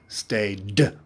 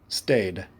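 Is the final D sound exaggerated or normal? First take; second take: exaggerated; normal. First: The final D is pronounced strongly and exaggerated. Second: The final D is pronounced lightly and naturally. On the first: "I want to hear the D" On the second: "Now don't say it so strong. Say it normally"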